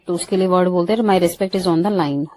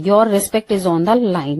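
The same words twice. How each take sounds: First: Said in the usual way. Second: Each word slowly and clearly, stress on "respect"; slow dictation. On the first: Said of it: "ये बोलते हैं". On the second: Shown as a demonstration. Teacher dictating the English sentence slowly to students. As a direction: read it slowly, like dictation to a class. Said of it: "daily use English sentence".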